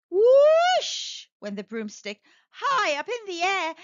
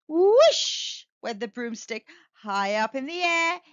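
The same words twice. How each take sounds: First: Higher, louder, slow dramatic read; building wonder; excited. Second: Said in the usual way. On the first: Acted. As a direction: make the broom soar. Broom flies up dramatically.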